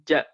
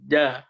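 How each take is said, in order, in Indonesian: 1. Konsonan dilepas dengan napas yang terdengar. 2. Konsonan bersuara tanpa napas yang dilepas. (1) "Jangan ja, ja, ja. Ada c, c-nya itu itu berhamas" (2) "Baj, ja, ja, ja gitu"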